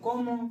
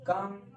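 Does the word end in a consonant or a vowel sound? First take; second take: vowel; consonant. First: Both syllables have an o vowel, ending in a vowel. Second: One syllable with a short a, ending in m. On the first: The speaker calls it wrong. "यहाँ पढ़ते हैं कोमो" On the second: The speaker calls it right. "इसको पढ़ेंगे क म कम"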